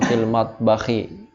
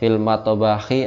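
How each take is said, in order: First: The t sound closes directly with no bounce. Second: An extra bouncing vowel follows the t sound. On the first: The speaker calls it right. "Jadi kita bacanya enggak usah dikol-kolah ya" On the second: The speaker calls it wrong. "Pakai tajud atau enggak ya?"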